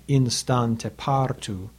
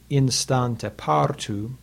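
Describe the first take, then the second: First: "Instante partu" stretched slowly, each long syllable weighted; slow scansion. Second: "Instante partu" drawn out slowly, then a caesura pause; slow scansion. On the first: Teacher demonstrates the caesura to students, slow scansion. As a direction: halt after partu. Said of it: "In the second line". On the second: Teacher marks the caesura for students, slow scansion. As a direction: weigh every long. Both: Shown as a demonstration.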